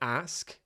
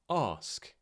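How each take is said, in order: First: The vowel is a flat, front a sound. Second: The vowel is a long, broad ah sound.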